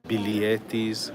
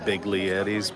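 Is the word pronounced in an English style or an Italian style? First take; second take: Italian; English style. First: The word is pronounced the Italian way. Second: The word is pronounced as English spelling suggests. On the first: "I think is what they call them in Italian" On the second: "because that's how it's actually spelled"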